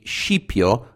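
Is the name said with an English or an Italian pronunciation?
Italian. The name has an Italian pronunciation. "whereas in Italian it would be Scipio"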